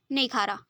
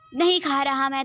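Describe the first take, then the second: First: Said in the usual way. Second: Louder sulky no; grumpy son refuses the medicine loudly; stubborn refusal. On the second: Acted. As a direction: refuse it like a cranky patient.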